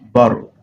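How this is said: The middle T is a quick tapped R-like sound. "Americans will say barrel"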